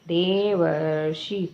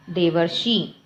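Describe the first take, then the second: First: देवर्षि stretched very slowly, syllable by syllable; slow spelled-out pronunciation. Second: Said in the usual way. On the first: Shown as a demonstration. Teacher showing children the अर in देवर्षि, said very slowly. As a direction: pull देवर्षि apart slowly for the class. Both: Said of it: "अर आ रहा है बेटा".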